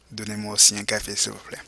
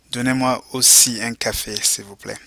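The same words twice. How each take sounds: First: Fast quiet repeat. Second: Model phrase for repeating. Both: Shown as a demonstration. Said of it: "go ahead and repeat".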